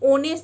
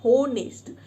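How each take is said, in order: First: The word begins with a vowel, no h. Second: The word begins with an audible h sound. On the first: The speaker calls it right. "ये ओनेस्ट होता है, because एच silent होता है" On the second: The speaker calls it wrong. "कई लोग ना इसको होनेस्ट बोलते हैं"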